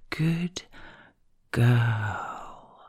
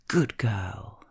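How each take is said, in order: First: Drawn-out second word. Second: "Good" hit hard and short, low voice; punched first word. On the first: Partner keeping the speaker waiting for the ending, drawn-out "girl.". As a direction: hold off, then draw out "girl." slowly. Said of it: "you draw out the second word for so long". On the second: Partner praising with force, punched "Good". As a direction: punch "Good", let "girl." follow. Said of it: "you punch the first word into being". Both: Shown as a demonstration.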